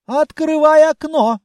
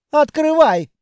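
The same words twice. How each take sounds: First: Loud barked order; commanding shout. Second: Proud command. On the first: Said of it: "скомандовал". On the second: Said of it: "гордо фыркнул". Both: Acted.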